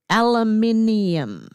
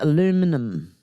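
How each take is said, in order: First: The word has five syllables, ending in '-ium'. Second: The word has four syllables, ending in '-um'. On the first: This is how the speaker's own country says it. "we pronounce it aluminium" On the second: This is how the listener's country says it. "So you call it aluminum"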